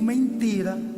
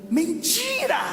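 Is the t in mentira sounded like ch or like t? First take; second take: t; ch. First: The t is a plain, hard t sound. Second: The t is softened toward a ch sound. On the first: The speaker is not Brazilian. "eu digo mentira" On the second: The speaker is Brazilian. "vocês dizem mentira"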